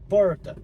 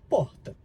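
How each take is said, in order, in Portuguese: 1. O r é forte e claramente articulado. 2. O r é suave e levemente articulado. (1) "com esse R mais articulado" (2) "do Nordeste e eu falo porta"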